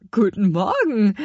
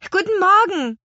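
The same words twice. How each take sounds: First: Put-on louder, puzzled old lady's reply; a hint of an astonished old woman; old woman surprised. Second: Much higher, loud call upward; children calling up. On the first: Old woman answering strange children, mildly surprised. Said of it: "antwortete die alte Frau erstaunt". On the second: Acted. Twins calling up to old woman on balcony, loud and high. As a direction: shout a greeting up to a balcony. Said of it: "riefen sie".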